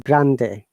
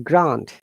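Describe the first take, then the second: First: The word is pronounced the Spanish way. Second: The word is pronounced the English way. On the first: "when it is Spanish, it is Grande" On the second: "when you're uh, pronouncing this in English, it is Grande"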